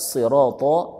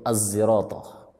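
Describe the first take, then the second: First: It begins with an emphatic, heavy s sound. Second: It begins with an s blended toward z. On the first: "ada yang membaca dengan huruf sad" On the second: "dengan ismam"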